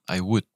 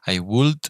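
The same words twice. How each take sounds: First: The L in 'would' is silent. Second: The L in 'would' is clearly pronounced. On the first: The speaker calls it right. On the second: The speaker calls it wrong. "we don't pronounce the L. So we don't say I would"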